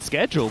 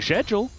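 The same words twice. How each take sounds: First: Schedule is pronounced the American way. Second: Schedule is pronounced a non-American way. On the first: This is how the people around the speaker say it. "everyone around me is saying schedule" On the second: This is how the speaker grew up saying it. "I've grown up saying schedule"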